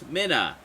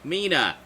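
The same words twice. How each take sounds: First: The first vowel is short, like 'min'. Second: The first vowel is long, like 'mean'. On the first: This matches the name spelled with two Ns. The speaker calls it wrong. "Two N's" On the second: This matches the name spelled with one N. The speaker calls it right. "One N"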